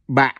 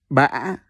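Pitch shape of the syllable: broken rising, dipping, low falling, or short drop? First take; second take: short drop; broken rising. First: The pitch drops low and cuts off abruptly. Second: The pitch rises with a break in the voice. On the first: "The one with the dot is pronounced as Ba" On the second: "With the funny sideway accent ... So you pronounce it as Ba"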